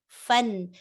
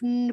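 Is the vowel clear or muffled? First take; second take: clear; muffled. First: The short vowel is clear and distinct. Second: The short vowel is vague and indistinct. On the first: The speaker calls it right. "be pronounced fun" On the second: The speaker calls it wrong. "Don't say fun, fun, fun like that. I cannot hear either fatha or kasra or dhamma"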